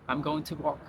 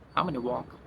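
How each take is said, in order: First: Going to is said fully as two words. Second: Going to is shortened to gonna. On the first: The speaker calls it wrong. "he's not going to say" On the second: The speaker calls it right. "He will say"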